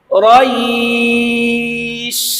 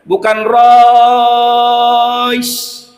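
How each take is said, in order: First: The i vowel is drawn out long. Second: The o vowel is drawn out long. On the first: The speaker calls it right. "Yang panjang bunyi i-nya" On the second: The speaker calls it wrong. "Bukan o-nya yang panjang"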